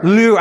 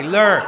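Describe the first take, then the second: First: "Lure" with his own accent, a rolled, clipped luɹ. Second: Fix "lure" to the standard sound; corrected lure. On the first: Pastor's accent slips out teaching kids a word, "Lure" accented. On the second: Pastor correcting his accented word for the kids, "lure" standard. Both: Shown as a demonstration. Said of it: "my accent comes out".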